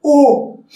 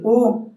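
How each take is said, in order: First: "U" lifted, held and projected; fully voiced vowel. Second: "U" short and understated; weakly pronounced vowel. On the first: Coach shows correct vocalization, a full held "U". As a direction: give "U" its full, sustained sound. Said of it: "se dice U". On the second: Coach shows how not to vocalize, a weak short "U". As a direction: say "U" small, without projecting it. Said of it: "practicar la pronunciación de las vocales". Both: Shown as a demonstration.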